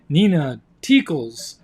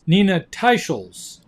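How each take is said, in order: First: The surname is said as Teakles. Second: The surname is said as Teicholz. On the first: The speaker calls it wrong. "I mentioned the name Nina Teakles" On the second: The speaker calls it right. "her name is pronounced Nina Teicholz"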